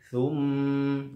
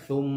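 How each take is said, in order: First: The m is light, said with spread lips. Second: The m is heavy, said with rounded lips. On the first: The speaker calls it right. "tapi thum ya" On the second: The speaker calls it wrong. "jangan thum gitu ya"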